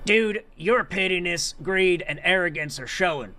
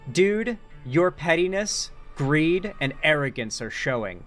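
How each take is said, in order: First: It is read in a put-on imitating voice. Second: It is read in the speaker's normal voice.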